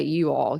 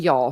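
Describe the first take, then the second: First: "You all," said as two clear words, lower; "You all," carefully split into two words; mom's proper you all. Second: "Y'all," clipped into one syllable, lower; southern y'all. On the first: Mom correcting the daughter's y'all, carefully. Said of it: "she would say". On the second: Daughter recalling her casual Southern y'all. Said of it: "if I said, like". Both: Retold or imitated.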